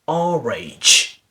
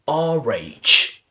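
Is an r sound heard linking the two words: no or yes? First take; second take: yes; yes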